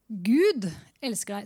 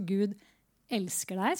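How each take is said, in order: First: The stress is on the first word. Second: The stress is on the second word. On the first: "hvis vi legger trykket på første ord" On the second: "prøve nummer 2"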